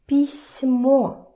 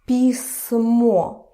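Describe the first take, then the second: First: The s sound is soft, palatalized. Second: The s sound is hard, not palatalized. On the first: "with the soft sign" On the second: "without the soft sign"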